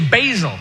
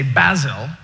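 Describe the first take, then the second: First: It is said in an American accent. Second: It is said in a British accent.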